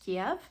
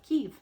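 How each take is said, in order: First: The name is said the older English way. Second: The name is said the Ukrainian way. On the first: "I had always heard it pronounced Kiev" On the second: "the Ukrainian pronunciation of Kiev"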